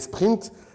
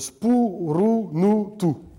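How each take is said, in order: First: It is said as one syllable, no added vowels. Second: It is said with added vowels after each consonant.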